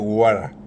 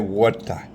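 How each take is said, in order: First: It is said in an American accent. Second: It is said in an African accent. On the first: "Here they say" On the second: "In Africa we say"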